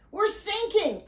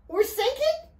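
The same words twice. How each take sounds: First: High-pitched alarm, falling at the end; panicked cry. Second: Very high, disbelieving question, rising at end; alarmed cry. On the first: Alfie as water pours into the boat, panicked cry. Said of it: "Alfie cried". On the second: Riley learns the boat is flooding, alarmed cry. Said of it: "Riley cried". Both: A narrator's reading.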